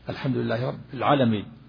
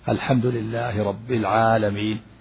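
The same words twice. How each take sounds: First: The long vowels are cut short. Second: The long vowels are held for two counts. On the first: The speaker calls it wrong. "إذا لم يمد ماذا يقول" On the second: The speaker calls it right. "يمد الحروف الطبيعية مقدار حركتين"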